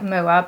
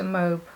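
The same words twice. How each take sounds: First: It is read out like English spelling. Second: It is said in a French style. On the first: The speaker calls it wrong. "it looks like Moab, but you don't pronounce it that way" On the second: The speaker calls it right. "so I think it's Rose de Moab"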